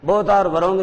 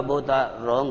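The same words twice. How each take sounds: First: "wrong" in two beats, wuh-RONG; wrong silent-W pronunciation. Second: WRONG as one syllable starting on R; slow, lower demo with WRONG said "rong"; correct silent W. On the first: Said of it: "नहीं होता". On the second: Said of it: "होता है". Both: Shown as a demonstration.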